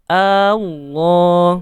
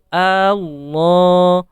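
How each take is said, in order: Both takes have the same delivery.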